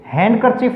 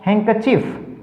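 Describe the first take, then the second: First: The word is said with the d pronounced. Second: The word is said with the d silent. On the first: The speaker calls it wrong. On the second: The speaker calls it right.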